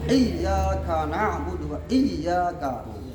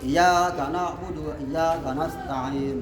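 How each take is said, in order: First: The doubled y sound is held long. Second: The doubled y sound is cut short. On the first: The speaker calls it right. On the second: The speaker calls it wrong. "Nah itu kan kurang orang kurang pas"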